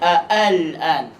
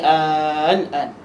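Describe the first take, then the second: First: Two glottal stops separate the opening vowels. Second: The opening vowel is drawn out long. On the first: This is the original form of the word. "Asalnya al-an. ... Ada dua hamzah" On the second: This is how it is recited. "dia panjangkan"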